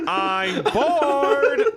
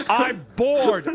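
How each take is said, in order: First: Higher whining I'm bored through laughter, rising at the end; hammed-up whine. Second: Mild mock whine, falling at the end; mock boredom. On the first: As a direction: stretch the complaint out, higher and laughing. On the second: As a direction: echo the friend's complaint in a higher voice.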